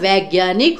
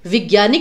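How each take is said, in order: First: The first syllable has an 'ai' vowel. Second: The first syllable has a short 'i' vowel. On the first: The speaker calls it right. "होता है" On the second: The speaker calls it wrong. "नहीं होता"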